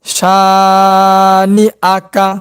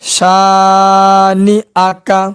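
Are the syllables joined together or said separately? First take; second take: joined; joined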